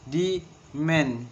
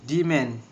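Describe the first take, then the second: First: Slower, syllables apart. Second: Said in the usual way. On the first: Shown as a demonstration. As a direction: demand drawn out as de-mand, second beat stressed. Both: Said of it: "And the two syllables".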